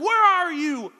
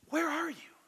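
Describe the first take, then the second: First: It is yelled in an angry, hunting tone. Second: It is said softly in a loving tone.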